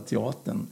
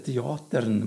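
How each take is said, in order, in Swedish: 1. R-ljudet är svagt eller borta. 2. R-ljudet uttalas tydligt. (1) "Så man säger inte bara teatern" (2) "Man ska höra ärret där"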